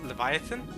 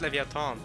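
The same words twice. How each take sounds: First: The word is said with English pronunciation. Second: The word is said with Norwegian pronunciation. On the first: "I think it's pronounced Leviathan" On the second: "that's how it's pronounced in in uh, in, in Norwegian"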